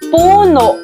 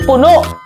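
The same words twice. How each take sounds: First: It is said gently, without a quick sharp ending. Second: It is said quickly with a catch at the end. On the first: It means a tree or its trunk. "Ito ay kabilang sa diing malumi" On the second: It means full to the brim. "bibigkasin ng mabilis at may impit na tunog sa bandang dulo"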